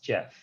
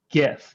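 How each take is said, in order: First: The word begins with a soft G sound. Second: The word begins with a hard G sound. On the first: The speaker calls it right. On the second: The speaker calls it wrong.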